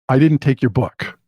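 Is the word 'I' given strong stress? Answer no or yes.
no. It is said plainly, without special stress on 'I'. It is a plain denial of taking the book. "I can do a very simple example of saying"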